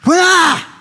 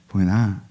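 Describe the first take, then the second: First: The name is called loudly and forcefully. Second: The name is called gently and softly. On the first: The caller is urgent and insistent. The speaker calls it right. "이게 아니라" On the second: The caller is mild and patient. The speaker calls it wrong. "이렇게 소프트한 성격은 아니세요"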